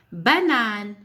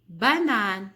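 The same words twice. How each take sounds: First: Banane said loudly and clearly; louder model word. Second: Said in the usual way. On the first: Shown as a demonstration. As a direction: say Banane firmly for the class. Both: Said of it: "quand tu entends O".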